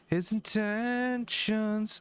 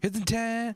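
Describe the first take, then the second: First: It is said smoothly, without rushing. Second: It is said fast and rushed.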